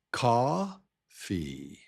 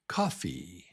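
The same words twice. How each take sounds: First: "coffee" drawn apart as COF, pause, fee; long strong first beat of "coffee", then a separate fee; split into syllables. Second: Said in the usual way. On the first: Shown as a demonstration. Teacher breaks the word down, "coffee" in two stressed-then-weak pieces. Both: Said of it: "Yeah, so it's".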